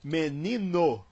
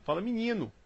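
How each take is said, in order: First: Menino slow and careful, every letter clear as written; written form. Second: Rio accent, menino said as minino with an i in the first syllable. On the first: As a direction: spell menino out in speech, me-ni-no. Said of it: "se escreve em português". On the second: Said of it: "Aqui no Rio isso não se fala". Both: Shown as a demonstration.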